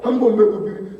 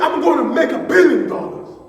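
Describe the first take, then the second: First: It is said flatly, without excitement. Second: It is said loudly and with excitement.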